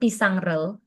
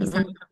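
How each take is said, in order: First: An r sound joins the word and ending. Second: The ending joins directly with no r. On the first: The speaker calls it wrong. "sama pisangrel" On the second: The speaker calls it right. "enakan pisangel kan"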